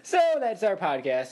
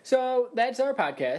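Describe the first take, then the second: First: Retold abrupt sign-off. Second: Abrupt sign-off. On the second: Acted. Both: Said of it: "took a deep breath and said".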